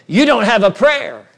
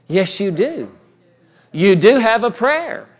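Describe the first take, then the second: First: Loud, raised-pitch verdict, imitating the devil; retold devil's voice. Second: Retold Lord's answer, DO stressed against a denial; strong, emphatic DO. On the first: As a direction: throw out the devil's taunt forcefully. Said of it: "when that voice came". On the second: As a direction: counter firmly, leaning hard on "do", pitch raised. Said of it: "it resounded so strong".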